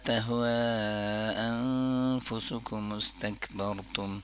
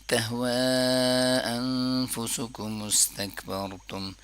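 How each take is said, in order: No difference in how they are said.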